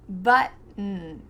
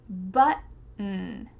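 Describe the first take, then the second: Both takes have the same delivery.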